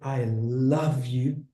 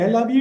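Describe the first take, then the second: First: It is said with deep, heartfelt feeling. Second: It is said flatly, without feeling.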